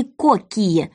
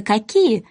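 First: «кокие» said with an o, not «какие»; juror's wrong spelling read out as «кокие»; misspelt «кокие». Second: Said in the usual way. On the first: Shown as a demonstration. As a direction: say «кокие» with an open o in the first syllable. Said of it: "или". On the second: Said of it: "как пишется".

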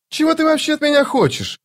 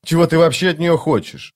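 First: Much higher, outraged question; indignant. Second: Said in the usual way. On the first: A narrator's reading. Vaza demanding what the thief wants, indignant and high. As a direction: flare up, offended. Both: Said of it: "возмутилась Ваза".

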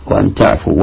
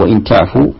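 First: وأن تعفوا with وأن said "wa-an"; fatha on the hamza. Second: وإن تعفوا with وإن said "wa-in"; an "i" in وإن, not "a"; kasra on the hamza. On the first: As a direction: open "a" in وأن, not "i". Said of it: "بفتح". (انطق وأن تعفوا بفتح همزة وأن) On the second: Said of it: "عندي بالكسر". (انطق وإن تعفوا بكسر همزة وإن) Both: Shown as a demonstration.

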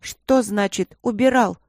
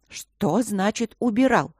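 First: Higher, louder, slow demand; drawn-out indignant challenge; indignant echo. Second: Higher, slow, disapproving question; icy wifely astonishment, lightly acted; unpleasantly surprised. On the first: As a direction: echo the question as an outraged daughter. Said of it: "вторила Эбби". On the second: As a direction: draw it out with displeased surprise. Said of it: "удивилась мама неприятным голосом". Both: A narrator's reading.

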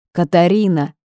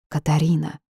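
First: Louder call of the name; urgent call. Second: Said in the usual way. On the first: A narrator's reading. Ghost calling the heroine as she fades, urgent loud call. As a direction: raise the voice to reach her.

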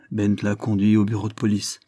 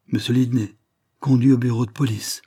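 First: Said in the usual way. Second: Mild shocked outcry; crying out. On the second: A narrator's reading. Ravensbird hearing of Lidney's arrest, crying out. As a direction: exclaim it, a little raised. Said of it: "cria Ravensbird".

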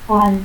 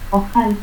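First: Oal, the J of ojal breathed away; aspirated J. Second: Said in the usual way. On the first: Shown as a demonstration. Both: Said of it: "el fonema X se aspira".

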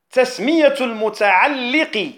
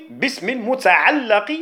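First: المتعلق with an "i" after the doubled lam; kasra on المتعلق. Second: المتعلق with an "a" after the doubled lam; fatha on المتعلق. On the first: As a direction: say المتعلق as al-muta'alliq. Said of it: "بالكسر". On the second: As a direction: say المتعلق as al-muta'allaq. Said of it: "بالفتح". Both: Shown as a demonstration.

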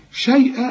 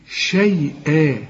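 First: شيئا said quickly and higher; a fast, raised check of شيئا. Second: شيئا slow, the last a held a full two beats; long final alif. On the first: Teacher repeats the word for the student. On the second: Teacher models the long ending for the student. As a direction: stretch the end of شيئا. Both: Shown as a demonstration. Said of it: "الفتحتين بيدوك ألف كاملة".

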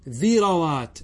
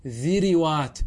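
First: ذروات as "dhirawaat", short a after ر; careful "dhi-ra-waat" for ذروات; fatha on second letter. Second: ذروات as "dhiriwaat", i after ذ and i after ر; careful "dhi-ri-waat" for ذروات; kasra on both. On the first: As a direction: say ذروات with i on ذ, then a on ر. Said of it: "بل يجب فتح العين". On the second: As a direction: say ذروات with two short i vowels before the long waat. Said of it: "بكسر الفاء والعين". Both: Shown as a demonstration.

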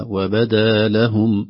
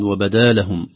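First: وبدا لهم very slowly, each word set apart; each word separate. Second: وبدا لهم slurred as one word; words run together. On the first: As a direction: give وبدا and لهم their own space. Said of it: "الفصاحة تستدعي أن يظهر لكل كلمة". (وبدا لهم بفصل كل كلمة) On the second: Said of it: "كأنها كلمة واحدة". (وبدا لهم كأنها كلمة واحدة) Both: Shown as a demonstration.

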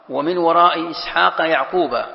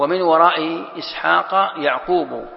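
First: يعقوب ends in a clear -a, Ya'quba; يعقوب read with an open final a, not -u; reading with fatha. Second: يعقوب ends in a rounded -u, Ya'qubu; يعقوب read with a final u, not -a; reading with damma. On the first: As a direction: recite slowly and end يعقوب on a fatha: Ya'quba. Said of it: "بالفتح". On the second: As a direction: recite slowly and close يعقوب on a damma: Ya'qubu. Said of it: "بالرفع". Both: Shown as a demonstration.

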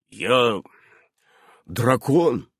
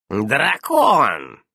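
First: Understated gloomy admission; glum, contained statement. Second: Loud, drawn-out disbelief; raised, stretched, incredulous cry; incredulous exclamation. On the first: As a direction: pronounce ДРАКОН grimly, voice falling. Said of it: "мрачно изрёк он". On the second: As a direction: exclaim ДРАКОН as if unable to believe it. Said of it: "недоверчиво воскликнула ведьма". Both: A narrator's reading.

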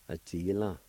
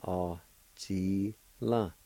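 First: A-ji-la as one connected word; whole-word model of A-ji-la; joined-up pronunciation. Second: Very slow A-ji-la with pauses between syllables; syllable-by-syllable pronunciation. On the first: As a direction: say A-ji-la straight through, no pauses. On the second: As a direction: stretch A-ji-la into three separate beats. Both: Shown as a demonstration. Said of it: "It's pronounced like this".

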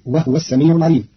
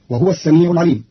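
First: وهو with silent ha, wahw; ha held still in وهو, wahw; Qalun reading. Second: وهو with voweled ha, wahuwa; wahuwa, the ha carrying u; standard reading. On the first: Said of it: "فتصير". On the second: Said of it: "بإسكان الهاء". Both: Shown as a demonstration.

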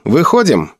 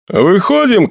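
First: "выходим" as a firm falling order; decisive, falling "выходим"; command. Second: "Выходим" lifted high as a question; high, querying "Выходим". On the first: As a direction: give "выходим" as a command, pitch coming down. Felix orders the battalion out. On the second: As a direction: ask "Выходим" with the pitch raised. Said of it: "спросил Эмиль". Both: A narrator's reading.

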